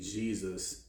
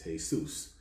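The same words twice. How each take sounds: First: The name is said with English pronunciation. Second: The name is said with Spanish pronunciation.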